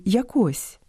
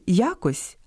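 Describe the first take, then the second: First: ЯкО́СЬ, second syllable stressed; якось with the stress on КОСЬ; stress on last syllable. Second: Я́кось, first syllable stressed; якось with the stress on Я. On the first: (наголос на другому складі: яко́сь) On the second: (наголос на першому складі: я́кось) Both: Shown as a demonstration. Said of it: "у правильному наголошуванні яких".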